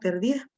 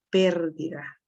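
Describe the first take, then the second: First: The stress is on the second syllable. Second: The stress is on the first syllable. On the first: The wife is described as a lost woman. The speaker calls it wrong. "se habían comido la tilde" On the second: It refers to the loss of the wife. The speaker calls it right. "iría en la E, para que diga pérdida"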